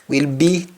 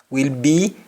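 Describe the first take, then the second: The two takes are said the same way.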